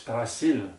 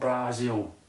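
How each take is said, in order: First: The middle consonant is a soft s sound. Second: The middle consonant is a buzzing z sound. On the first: The speaker calls it right. "it's actually spelt B R A S I L. It's Brazil" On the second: The speaker calls it wrong. "not Brazil"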